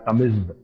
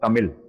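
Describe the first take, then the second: First: The word ends with a Z sound. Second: The word ends with an L sound. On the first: "if you pronounce it with Z and H ... they pronounce it like" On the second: "if you pronounce it with L, then it becomes Tamil"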